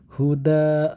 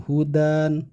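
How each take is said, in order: First: The word ends in a long vowel, no n. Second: The word ends with an n sound. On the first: The speaker calls it right. "Huda seperti itu" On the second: The speaker calls it wrong. "bukan hudan, bukan seperti itu ya"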